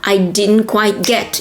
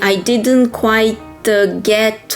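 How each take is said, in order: First: It is said smoothly, without any hesitation. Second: It is said haltingly, with a filler pause. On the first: The speaker calls it right. "it has to be fluent" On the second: The speaker calls it wrong. "instead of saying"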